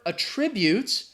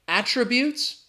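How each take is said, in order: First: The stress is on the second syllable. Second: The stress is on the first syllable. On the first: It says something is caused by something else. "the verb attributes" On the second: It names qualities someone has. "we're talking about their characteristics, the noun"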